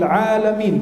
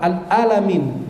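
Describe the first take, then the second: First: Alamin opened with a squeezed throat ain, long first a; clear ain. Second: Al-alamin with a plain glottal a, no ain; missing ain. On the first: Preacher correcting Al-Fatihah, alamin with a clear throaty ain. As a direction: say 'alamin with the ain made distinct. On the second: Preacher showing what not to say, al-alamin without the ain. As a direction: say al-alamin slowly with an open plain vowel. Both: Shown as a demonstration. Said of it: "Ainnya diperjelas".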